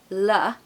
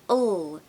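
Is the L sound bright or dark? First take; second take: bright; dark. First: The L is bright, made at the front. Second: The L is dark, made further back. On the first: The speaker calls it wrong. "It's not a bright L, meaning it doesn't happen at the front of the mouth. It's not L" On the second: The speaker calls it right. "it's L. It happens behind your tongue. It's darkened and muted"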